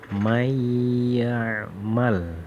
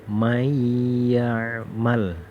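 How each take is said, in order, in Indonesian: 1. Bunyi n menyatu dengan bunyi setelahnya. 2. Bunyi n menyatu dengan bunyi setelahnya.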